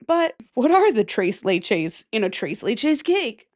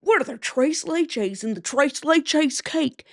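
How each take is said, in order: First: Said in the usual way. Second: Exaggerated white American accent, drawn out; slow, hammed-up white accent with widened vowels; whiter accent. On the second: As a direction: lay the white accent on thick, higher and slower. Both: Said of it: "say that with a whiter accent".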